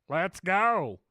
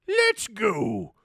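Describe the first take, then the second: First: It is said in his normal voice. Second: It is said in a Mister Krabs voice.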